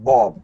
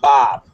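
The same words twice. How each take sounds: First: It is said with a British accent. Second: It is said with an American accent. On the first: "It's not Bob. Bob would be a little bit British" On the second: "the American pronunciation is Bob"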